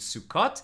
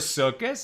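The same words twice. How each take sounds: First: It is said in an Israeli pronunciation. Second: It is said in a non-Israeli pronunciation.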